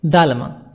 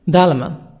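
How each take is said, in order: Both takes have the same delivery.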